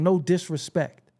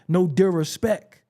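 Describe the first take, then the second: First: The first syllable is said with an s sound. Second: The first syllable is said without an s sound. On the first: The speaker calls it right. "instead of saying" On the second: The speaker calls it wrong.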